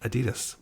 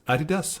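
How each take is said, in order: First: Said with an English-speaker pronunciation. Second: Said with the original German pronunciation. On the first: The speaker calls it wrong. "we say we say Adidas" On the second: The speaker calls it right. "but it's Adidas"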